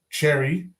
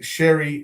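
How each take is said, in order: First: The name begins with a hard ch sound. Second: The name begins with a soft sh sound. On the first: The speaker calls it wrong. "not Cherry" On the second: The speaker calls it right. "Cherry's pronounced Sherry"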